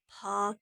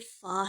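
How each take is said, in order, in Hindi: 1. इसकी शुरुआत साँस वाली p आवाज़ से होती है। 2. इसकी शुरुआत f आवाज़ से होती है। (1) "अक्सर लोग इसको फा कहकर तलफ़ुज़ करते हैं, फा की आवाज़ में ... तो ये भी सूरत गलत है।" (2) "मगर ये फ़ा है।"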